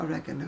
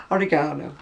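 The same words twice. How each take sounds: First: "oregano" as o-REG-a-no, stress on second syllable; rejected American pronunciation. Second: "Oregano" as o-ri-GAH-no, stress on third syllable; British pronunciation of oregano. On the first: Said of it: "Not oregano". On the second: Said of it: "I would say". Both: Shown as a demonstration.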